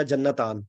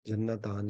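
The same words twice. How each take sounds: First: جنتان said slowly with a doubled n, jan-na-taan; Arabic dual ending taan clearly sounded; careful pronunciation. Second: جنتان repeated lower and much softer, jan-na-taan; quietly re-say جنتان with the same doubled n; low murmured echo of جنتان. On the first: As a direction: spell out جنتان syllable by syllable with a held double n. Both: Shown as a demonstration. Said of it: "جنتان اس طرح کر کے ہوتا ہے".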